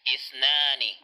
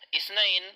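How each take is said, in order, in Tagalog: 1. Nagtatapos ang salita sa tunog na 'ani'. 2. Nagtatapos ang salita sa tunog na 'ain'. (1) "Number two ay isnani" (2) "mali po kapag sasabihin nating isnain"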